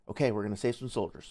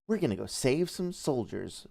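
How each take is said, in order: First: It sounds cautious and resolved. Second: It sounds sassy and smarmy.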